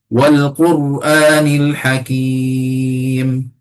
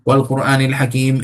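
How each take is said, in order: First: It is recited at moderate pace, verse by verse. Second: It is recited quickly, running verses together. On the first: The speaker calls it right. "Nak satu-satu" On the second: The speaker calls it wrong. "Tak nak macam tu"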